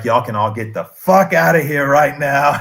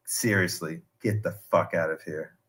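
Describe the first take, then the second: First: Loud, emphatic retold outburst; imitated loud dismissal; exasperated order. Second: Low, quiet, deadpan dismissal; retold low-key order; quietly serious. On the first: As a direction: raise your voice as the fed-up leader ordering everyone out. Cult leader's order escalates. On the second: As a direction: imitate a leader calmly telling followers off, low and soft. Voices cult leader dismissing followers.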